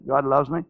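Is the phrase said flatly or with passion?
flatly. It is said in a plain, routine way. The words are repeated out of habit. "It's different to saying"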